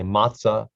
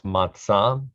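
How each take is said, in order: First: It is said with an American English pronunciation. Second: It is said with a Hebrew pronunciation. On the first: "Some Americans say matzah" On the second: "Officially in Hebrew, it's matzah"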